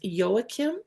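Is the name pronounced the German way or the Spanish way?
German. The name is pronounced with German sounds. The speaker calls it right. "the German way is"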